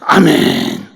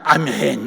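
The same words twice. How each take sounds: First: It is said with strong feeling. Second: It is said flatly, without feeling.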